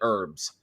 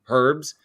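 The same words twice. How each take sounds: First: The word begins with a vowel, H silent. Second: The word begins with an audible H sound. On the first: This is how Americans say it. "We call it herbs ... The H is silent" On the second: This is how some other people say it. "some people pronounce it herbs, like herbs"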